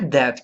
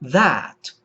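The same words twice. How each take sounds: First: The vowel is a Portuguese-style open e. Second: The vowel is an American English flat a. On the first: The speaker calls it wrong. "Não é é do português" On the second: The speaker calls it right. "é a no inglês americano"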